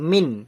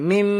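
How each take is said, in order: First: The word ends with a clear n sound. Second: The word ends with a nasalized, held m sound. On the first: "নুনের সাকিন আছে তো নুনটা যুক্ত হচ্ছিল" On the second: "মিন না করে মিম... মিম আর গুন্নাও হবে"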